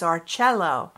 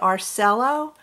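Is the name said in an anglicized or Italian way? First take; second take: Italian; anglicized. First: The name is said with an Italian pronunciation. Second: The name is said with an anglicized pronunciation. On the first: This is how it is said in Italian. "I think the Italian pronunciation is Arcello" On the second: This is how many people say it. "A lot of people say Arcello"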